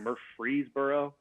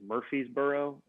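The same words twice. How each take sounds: First: The R after the F is pronounced. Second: The R after the F is left out. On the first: This is the technically correct form. The speaker calls it right. "instead of" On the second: This is how people usually say it. The speaker calls it wrong. "people kind of take out that second R after the F"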